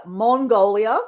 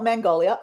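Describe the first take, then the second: First: "Mongolia" with a rounded MON, rising at the end; corrected pronunciation. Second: "Mongolia" said as "Man-golia"; wrong pronunciation. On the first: Host giving the right version, MON in "Mongolia". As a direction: say "Mongolia" starting like "mon", not "man". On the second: Host showing the mistake, "Mongolia" with MAN first. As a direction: open "Mongolia" with a flat "man" vowel. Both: Shown as a demonstration. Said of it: "not Mongolia".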